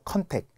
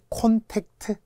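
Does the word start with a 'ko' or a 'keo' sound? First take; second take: keo; ko. First: The first vowel is 'eo' and the final 't' is dropped. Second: The first vowel is 'o' and the final 't' is kept. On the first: The speaker calls it wrong. "컨택이라고 하죠. 컨택. 절대 안 됩니다" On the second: The speaker calls it right. "아이 콘택트"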